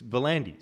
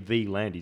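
First: The name begins with the syllable 'ver'. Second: The name begins with the letter name 'vee'. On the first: The speaker calls it right. "it's Verlandis" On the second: The speaker calls it wrong. "you don't say V Landis"

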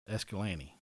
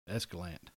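First: The name ends with a final vowel sound. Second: The name ends without a final vowel sound. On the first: Said formally when answering business calls. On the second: Said casually among family.

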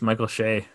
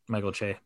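First: The surname begins with a soft sh sound. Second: The surname begins with a ch sound. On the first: The speaker calls it wrong. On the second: The speaker calls it right.

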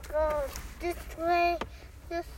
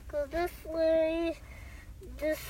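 The two takes are said the same way.

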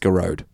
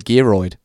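First: The surname is said like 'Garode'. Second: The surname is said like 'Geroid'. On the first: The speaker calls it right. "the correct pronunciation of that surname is Garode" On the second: The speaker calls it wrong. "our listener Geroid"

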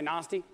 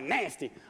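First: It is said in an Australian accent. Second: It is said in an American accent.

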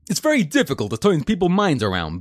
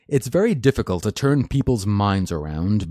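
First: It is said in a put-on foreign accent. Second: It is said in the speaker's normal accent.

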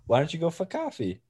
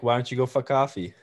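First: It is said in a plain accent. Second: It is said in a Boston accent.

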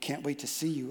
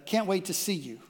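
First: It is said in a cold, ominous tone. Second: It is said in a warm, eager tone. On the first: The reader thinks something is wrong. "When they read it, they go" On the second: The writer is happy about the meeting. "you meant"

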